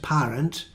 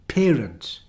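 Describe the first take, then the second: First: The first vowel is not the air sound. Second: The first vowel is the air sound. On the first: The speaker calls it wrong. "the pronunciation isn't parent" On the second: The speaker calls it right. "It must be parent"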